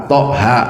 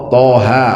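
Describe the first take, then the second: No difference in how they are said.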